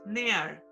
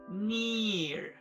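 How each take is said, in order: First: The ee vowel is weak and relaxed. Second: The ee vowel is clear and tense. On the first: The speaker calls it wrong. "no es near" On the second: The speaker calls it right. "es near, okay, que se note la I"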